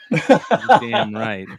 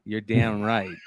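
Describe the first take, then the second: First: Loud, slow, stretched-out catchphrase; slow, drawn-out. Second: Said in the usual way. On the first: Shown as a demonstration. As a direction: drag it out slowly with a laugh. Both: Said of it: "repeated catchphrase, drawn out".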